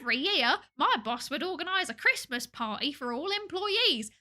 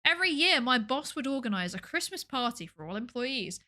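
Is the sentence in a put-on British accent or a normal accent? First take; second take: British accent; normal accent. First: It is read in an exaggerated fake British accent. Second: It is read in the speaker's ordinary accent.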